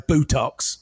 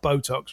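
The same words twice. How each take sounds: First: It is said in a rural Essex accent. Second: It is said in a standard English accent. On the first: "they'd say Botox" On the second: "not Botox"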